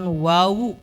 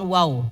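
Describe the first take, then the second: First: It is said with two syllables, ending in u. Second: It is said as one clipped syllable. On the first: The speaker calls it right. "kemudian wawu bukan wow" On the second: The speaker calls it wrong. "bukan wow"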